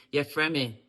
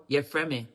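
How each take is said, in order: Both takes have the same delivery.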